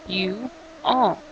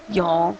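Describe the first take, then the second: First: The two words are said as separate syllables. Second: The two words merge into one syllable. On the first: The speaker calls it right. "Why don't you just say you all?" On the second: The speaker calls it wrong. "I just think y'all is such a weird word"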